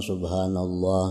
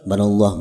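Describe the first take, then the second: First: The phrase is said slowly and fully. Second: The phrase is said fast and clipped. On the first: The worshipper is patient. The speaker calls it right. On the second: The worshipper is impatient. The speaker calls it wrong.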